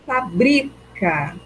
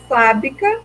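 First: The stress is on the second syllable. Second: The stress is on the first syllable. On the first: "a minha sílaba mais forte é o bri" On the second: "a sílaba tônica é o fa"

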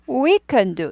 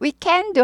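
First: The word can is weak and reduced. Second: The word can is full and stressed. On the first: The speaker calls it right. "we can do 이렇게 돼요" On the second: The speaker calls it wrong. "we can do 하면 안 되고"

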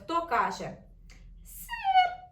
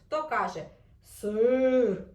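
First: It is said in a small, squeaky mouse voice. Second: It is said in a big, low bear voice. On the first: "мишка каже" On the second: "ведмедик каже"

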